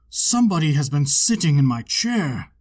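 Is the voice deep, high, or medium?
deep. It is said in a great big bear voice.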